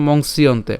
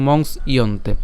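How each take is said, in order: First: মংসিয়ন্তে said as "mongsiyonte"; joined together. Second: মংস, small break, ইয়ন্তে; broken apart. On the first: Teacher compares with split form, মংসিয়ন্তে unbroken. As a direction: keep মংসিয়ন্তে in one piece. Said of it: "এখানে উচ্চারণ করলে কী হচ্ছে". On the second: Teacher demonstrates breaking the word, মংস / ইয়ন্তে split. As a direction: separate "mongs" from "iyonte" in মংস ইয়ন্তে. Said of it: "এটাকে যদি আমরা ভাঙি". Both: Shown as a demonstration.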